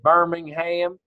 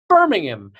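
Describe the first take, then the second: First: It is said with a Southern US accent. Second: It is said the British way.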